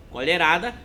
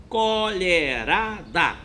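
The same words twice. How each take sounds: First: Said in the usual way. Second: Colherada slowly divided into CO-LHE-RA-DA; syllable by syllable. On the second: Shown as a demonstration. Teacher showing the answer to pupils, Colherada broken into four syllables. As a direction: give each of the four syllables of Colherada its own slow beat. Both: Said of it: "tem quatro sílabas".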